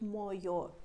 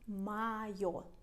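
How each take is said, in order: First: The first vowel sounds like a full O. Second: The first vowel sounds like A. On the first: The speaker calls it wrong. "not моё" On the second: The speaker calls it right. "Same with моё. ... we pronounce моё"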